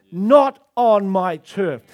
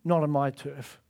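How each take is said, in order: First: Louder, slow proclamation; slow, loud pulpit declaration; bold declaration. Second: Lower, softer growled claim of turf; lion's low territorial warning; low quiet warning. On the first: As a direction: roar it out over the nation. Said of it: "we've not roared over our nation and said". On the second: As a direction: quietly warn the enemy off. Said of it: "It's saying to the enemy". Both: Acted.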